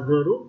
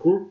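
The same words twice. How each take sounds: First: An extra vowel sound is heard inside the word. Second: No extra vowel sound is heard inside the word. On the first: The speaker calls it wrong. "Các bạn không được thói quen đọc là group nhé" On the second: The speaker calls it right. "mà các em phải đọc là group, là nó mất cái âm A đi"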